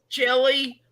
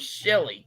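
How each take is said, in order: First: The name begins with a 'ch' sound. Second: The name begins with a 'sh' sound.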